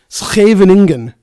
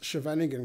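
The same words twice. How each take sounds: First: It is said with a Dutch pronunciation. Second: It is said with an anglicized pronunciation. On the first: The speaker calls it right. "I can pronounce it correctly" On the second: The speaker calls it wrong. "I pronounced it incorrectly to pronounce it correctly later"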